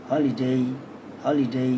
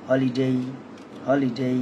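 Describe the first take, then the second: The two takes are said the same way.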